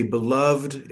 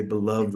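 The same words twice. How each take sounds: First: "beloved" as two syllables, be-LOVD, silent final e; two-syllable pronunciation. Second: "beloved" as three syllables, be-LOV-ED; three-syllable pronunciation. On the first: Teacher offering the easier form, "beloved" in two syllables, be-LOVD. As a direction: say "beloved" with the ending run together as -lovd. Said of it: "rather than beloved, three syllables". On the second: Teacher contrasting the longer form, "beloved" in three syllables, be-LOV-ED. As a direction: sound the final -ed of "beloved" as its own syllable. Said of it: "three syllables".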